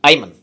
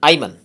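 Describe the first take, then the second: Both takes have the same delivery.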